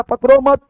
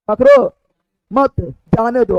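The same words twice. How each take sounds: First: "पकड़ो मत" as one unbroken group; pause after मत. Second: Rising "पकड़ो", break, then "मत जाने दो"; pause after पकड़ो. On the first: Teacher contrasting two comma readings, pause after मत. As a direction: join "मत" onto "पकड़ो", then stop. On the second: Teacher contrasting two comma readings, pause after पकड़ो. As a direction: cut after "पकड़ो", begin afresh on "मत". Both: Shown as a demonstration. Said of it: "comma पर depend करेगा".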